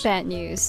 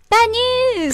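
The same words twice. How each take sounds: First: It is said in a flat, gloomy tone. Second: It is said in a bright, excited tone. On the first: The speaker calls it right. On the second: The speaker calls it wrong.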